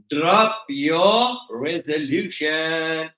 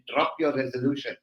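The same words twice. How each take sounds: First: "Drop your resolution" very slow, every word stretched; slow emphatic repeat. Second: Said in the usual way. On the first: Shown as a demonstration.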